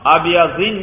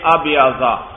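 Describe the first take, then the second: First: The word ends with an -in sound. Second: The word ends with an -a sound. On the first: The speaker calls it wrong. "ابیضین نہیں بھائی، یہ غیر منصرف ہے" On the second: The speaker calls it right. "ابیضا ضاد پر زبر لگائیں"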